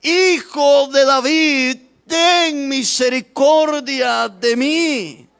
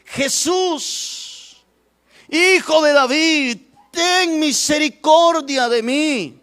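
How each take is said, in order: First: High, loud, very drawn-out plea; clamoring louder. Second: High, drawn-out call for mercy; crying out. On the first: Blind beggar refuses to be silenced, clamoring for mercy. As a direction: stretch each word into an insistent cry. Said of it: "él clamaba mucho más". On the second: Blind beggar calls to Jesus as he passes, crying out. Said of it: "el ciego dio voces diciendo". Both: Acted.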